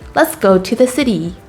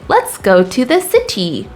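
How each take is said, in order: First: The T in city sounds like a soft D. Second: The T in city is a crisp T. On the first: The speaker calls it right. "We would say" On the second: The speaker calls it wrong. "You would never hear a native English speaker say"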